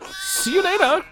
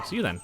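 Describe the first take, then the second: First: "See you later!" sung much higher, stretched and bouncy; sing-song goodbye. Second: Said in the usual way. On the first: Pretend. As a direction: call "See you later!" like a cheery parody. Exaggerated sing-song farewell.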